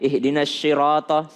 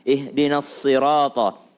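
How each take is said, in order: First: The consonant is pronounced like sh. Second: The consonant is pronounced like s. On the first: The speaker calls it wrong. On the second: The speaker calls it right. "Dia lebih dekat ke huruf sin"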